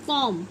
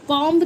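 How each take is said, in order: First: कॉम्ब finishing on m; correct silent b. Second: कॉम्ब loud, with the b sounded; mispronounced comb. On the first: Teacher stating how we say it, b silent. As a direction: drop the last b of कॉम्ब. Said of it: "बोलेंगे कॉम्ब". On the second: Teacher saying it is never so, b voiced. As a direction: punch out the b in कॉम्ब. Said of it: "कॉम्ब तो नहीं". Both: Shown as a demonstration.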